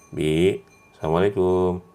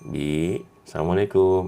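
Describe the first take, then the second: The two takes are said the same way.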